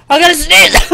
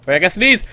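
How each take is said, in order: First: Higher-pitched urgent exclamation; real rising urgency; urgent outcry. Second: Said in the usual way. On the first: Real, not acted. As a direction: cry out that a sneeze is coming. Repeats sneeze warning, escalating.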